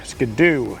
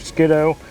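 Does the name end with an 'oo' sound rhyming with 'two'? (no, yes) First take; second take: yes; no. First: The name ends in an 'oo' sound. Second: The name ends in a different vowel. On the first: "number two" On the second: "it doesn't rhyme with two if I say it like that"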